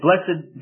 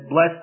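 First: The word is said with two syllables. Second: The word is said with one syllable. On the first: "pronounce it one way with two syllables" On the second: "and then blessed us with one syllable"

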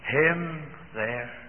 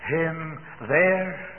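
First: The stress is on "him". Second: The stress is on "there".

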